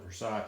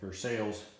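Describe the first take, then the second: First: The word is said the general, non-Kentucky way. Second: The word is said the Kentucky local way. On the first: This is how most people name the pattern. "they call that the Versailles pattern" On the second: This is how people from Kentucky say it. "Unless you're from uh, Kentucky, then it's the uh"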